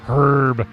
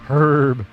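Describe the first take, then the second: Both takes have the same delivery.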